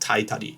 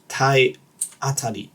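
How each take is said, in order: First: The 'a' after 'tai' is dropped: tai-tari. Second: The 'a' after 'tai' is kept: tai-a-tari. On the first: The speaker calls it wrong. "it's not Taitari" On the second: The speaker calls it right. "It's Tayatari"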